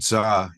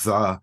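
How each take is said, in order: First: The word begins with a z sound. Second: The word begins with a th sound. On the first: The speaker calls it wrong. "they would go za" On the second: The speaker calls it right. "instead of the"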